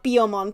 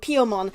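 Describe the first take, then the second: First: The name begins with a voiced B sound. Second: The name begins with a voiceless P sound. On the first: This is the English dub's version of the name. The speaker calls it wrong. "not Biomon. They just pronounced it weirdly in English" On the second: This is the original Japanese name, from the sound of tweeting. The speaker calls it right. "the name is originally Piomon. It is Piomon"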